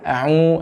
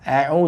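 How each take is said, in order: First: The sound goes through the nose, nasal. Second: The sound stays in the mouth, not nasal. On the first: The speaker calls it wrong. "jangan au, ... itu masuk ke hidung" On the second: The speaker calls it right. "tidak masuk ke rongga rongga hidung"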